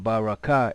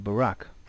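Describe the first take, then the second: First: The last syllable is said separately, ending in a vowel. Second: The last two sounds join, ending in a consonant. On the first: The speaker calls it wrong. "instead of Baraka" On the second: The speaker calls it right. "it would be Barak. Why? Because these last two letters, the Ra and the Ka, are connected"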